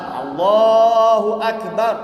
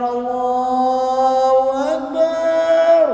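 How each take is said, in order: First: The vowels are kept at normal short length. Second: The vowels are stretched out very long. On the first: The speaker calls it right. "macam tu" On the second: The speaker calls it wrong. "itu dah panjang sangat"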